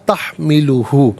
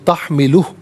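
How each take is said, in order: First: The word ends on a short u vowel. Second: The word ends on a bare h consonant. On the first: The reading continues without stopping. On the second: The reader stops at this point.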